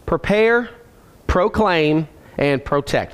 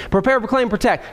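First: Each word set apart by a clear pause; deliberate repeat for people writing it down; slowed for note-takers. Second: Quick run-through of the list; brisk recap, no gaps between items; moving along briskly. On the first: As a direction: dictate the list slowly, word by word. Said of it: "I'm slowing down for the note takers". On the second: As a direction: rattle the three words off without pauses. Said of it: "I could keep moving". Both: Real, not acted.

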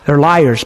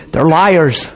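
First: Said in the usual way. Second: Laughing. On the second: Real, not acted. Repeats line laughing.

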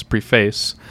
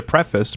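First: Long ee, full "face" in "preface"; spelling pronunciation. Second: Short e and weak ending on "preface"; standard pronunciation. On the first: Host playing with a word mid-question, "preface" said PREE-face. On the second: Host checking a word before asking a question, "preface" said PREF-iss. Corrects own saying of the word. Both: Shown as a demonstration.

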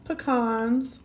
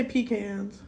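First: Pecans said "puh-KAHNZ"; puh-KAHNS pronunciation. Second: Pecans said "PEE-canz"; pecans as "pee" plus "cans"; PEE-cans pronunciation. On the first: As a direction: say pecans with stress on a broad "KAHNZ". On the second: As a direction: say pecans with a long "pee" and flat-A "can". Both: Shown as a demonstration. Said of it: "or do you say pecans".

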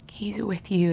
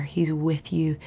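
First: Gentle whisper on he's with you; whispered reassurance. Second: Said in the usual way. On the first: Real, not acted. Comforting the listener, whispered.

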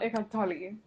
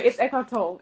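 First: "Tolle" in two syllables, TOL-ee; rejected Tolle pronunciation. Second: "Tolle" as one syllable, like toll; correct Tolle pronunciation. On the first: Host showing co-host the rejected version, "Tolle" ending in ee. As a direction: say "Tolle" with an ee on the end. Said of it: "But anyway, it's Eckhart Tolle". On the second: Host correcting co-host's pronunciation, "Tolle" said like toll. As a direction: quickly say "Tolle" rhyming with toll, no ee. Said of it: "It's not Eckhart Tolle". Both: Shown as a demonstration.

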